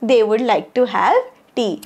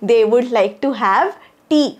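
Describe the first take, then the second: No difference in how they are said.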